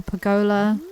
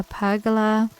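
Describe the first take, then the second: First: "pergola" stressed on GO; stress on second syllable. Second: "pergola" stressed on PER; stress on first syllable. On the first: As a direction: say "pergola" as per-GO-la, middle syllable strong. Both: Shown as a demonstration. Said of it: "we all say it different".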